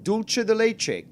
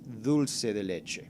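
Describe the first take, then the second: First: The first word has an Italian-style pronunciation. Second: The first word has a Spanish pronunciation. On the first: The speaker calls it wrong. "they're like, okay, uh, with dulce de leche coming right up" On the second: The speaker calls it right. "no, no, no, it's dulce de leche"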